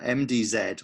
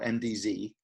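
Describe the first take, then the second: First: The final letter is said the British way. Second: The final letter is said the American way.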